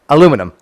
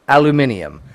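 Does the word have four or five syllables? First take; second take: four; five. First: The word is said with four syllables. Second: The word is said with five syllables. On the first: "I'm fucking American" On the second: "It should be pronounced aluminium"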